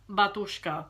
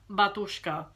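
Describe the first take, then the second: First: The name is pronounced in a Russian way. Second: The same.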